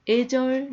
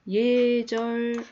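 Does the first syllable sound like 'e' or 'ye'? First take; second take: e; ye. First: The first syllable is a plain 'e' sound. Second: The first syllable has a 'ye' glide sound. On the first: The speaker calls it wrong. "애절 안 됩니다" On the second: The speaker calls it right.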